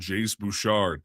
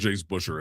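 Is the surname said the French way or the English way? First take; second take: French; English. First: The surname has a French-style pronunciation. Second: The surname has an English-style pronunciation. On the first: The speaker calls it wrong. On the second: The speaker calls it right.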